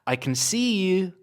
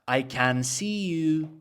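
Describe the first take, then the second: First: 'Can' is reduced and unstressed, giving a flowing rhythm. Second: Every word is full, with an even, unrhythmic beat. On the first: The speaker calls it right. "Let's add stress and unstress. That sounds more natural" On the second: The speaker calls it wrong. "it doesn't sound good. It doesn't sound rhythmic"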